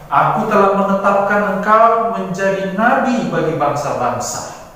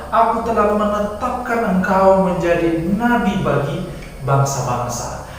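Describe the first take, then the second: Both takes have the same delivery.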